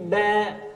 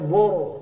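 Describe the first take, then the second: First: The B syllable is thin and light. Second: The B syllable is thick and heavy. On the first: The speaker calls it right. "tapi ba" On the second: The speaker calls it wrong. "Untung dibaca bor"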